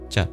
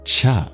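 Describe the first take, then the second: First: The consonant has no puff of breath. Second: The consonant has a strong puff of breath. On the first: "not as breathy as we might do the English C H sound. Just a simple cha" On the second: "indicates an aspirated palatal plosive"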